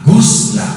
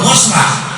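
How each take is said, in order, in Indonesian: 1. Vokal pertama adalah u bulat. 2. Vokal pertama adalah a terbuka. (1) "niat man mandi" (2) "saya niat membasuh, salah"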